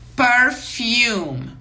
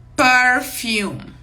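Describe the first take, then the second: First: It is pronounced with English sounds. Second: The same.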